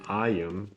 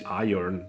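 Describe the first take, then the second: First: The word is said with no R sound. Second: The word is said with an R sound. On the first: "the U K way where you say iron without the R" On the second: "the U S way where you say iron, where you pronounce the R but not in the right place"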